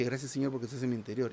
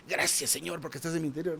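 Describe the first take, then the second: First: Rattled off fast without thought; fast, offhand prayer; quick rote prayer. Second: Unhurried, sincere prayer; deliberate sincere prayer. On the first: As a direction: rush through it mechanically. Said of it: "no se refiere a la forma, a la entonación, que dije". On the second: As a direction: say it like you mean it. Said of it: "Y ahora dije". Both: Shown as a demonstration.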